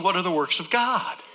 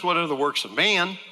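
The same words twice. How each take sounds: First: "God?" stressed with a lift at the end; "God" rising clearly on the corrected question. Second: "man" leaned on, set against God; "man" pushed up and out as the wrong answer; stress on man. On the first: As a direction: hit "God" as the right answer. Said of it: "He said". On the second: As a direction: land hard on the word "man". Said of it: "He didn't ask". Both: Shown as a demonstration.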